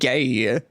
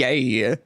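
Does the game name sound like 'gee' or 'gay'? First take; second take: gay; gay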